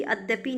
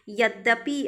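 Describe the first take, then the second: First: अद्यपि starting on a vowel; wrong form अद्यपि. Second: यद्यपि starting with a y; correct form यद्यपि. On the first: Teacher rejects the form, no initial y in अद्यपि. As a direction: open अद्यपि on a, no y. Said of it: "नहीं". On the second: Teacher gives the right word, initial y in यद्यपि. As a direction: open यद्यपि on ya. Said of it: "अद्यपि नहीं". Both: Shown as a demonstration.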